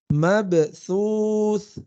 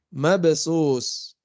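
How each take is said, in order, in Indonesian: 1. Konsonan di tengah adalah bunyi th yang lembut. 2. Konsonan di tengah adalah bunyi s yang mendesis. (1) "Harusnya mabthus" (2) "Yaitu jadi huruf sin"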